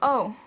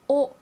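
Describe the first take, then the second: First: The vowel glides as the mouth moves. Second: The vowel stays steady without gliding. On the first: The speaker calls it wrong. "it moves a whole bunch" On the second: The speaker calls it right. "my mouth doesn't move at all"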